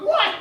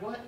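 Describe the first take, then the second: First: High, loud retold yelp of disbelief; shocked outburst. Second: Said in the usual way. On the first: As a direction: exclaim it in mock outrage, pitch leaping up. Retold shock at having to pay.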